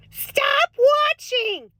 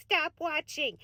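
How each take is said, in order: First: High, slow and stretched; a sing-song Minnesota-mom scolding; drawn-out plea. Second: Softer, matter-of-fact; a hushed, settled repeat. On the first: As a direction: plead with the viewers, stretching it out. Urging viewers to quit news. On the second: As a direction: say it again, quietly and firmly. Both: Acted.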